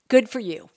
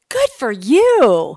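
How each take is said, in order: First: It is said in a plain, sincere tone. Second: It is said in a resentful, passive-aggressive tone. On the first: The speaker is genuinely pleased for the other person. "Could be benign" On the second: The speaker feels envy or resentment beneath the words. "the tone really matters"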